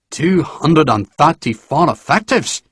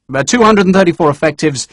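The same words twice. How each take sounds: First: Slow, disbelieving question; incredulous repeat. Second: Said in the usual way. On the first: A narrator's reading. General repeats Sharp's count, incredulous.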